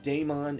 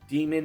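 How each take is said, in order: First: The first syllable sounds like 'day'. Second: The first syllable sounds like 'dee'. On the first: The speaker calls it wrong. "It is not Daemon" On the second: The speaker calls it right. "it is actually pronounced Demon"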